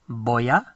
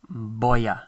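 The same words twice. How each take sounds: The two takes are said the same way.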